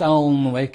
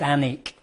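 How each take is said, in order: First: The L and W are both pronounced. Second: The L and W are both silent. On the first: The speaker calls it wrong. "but it's not pronounced Alnwick" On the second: The speaker calls it right. "it's pronounced Alnwick. Uh, so not only is the W silent, the L is also silent"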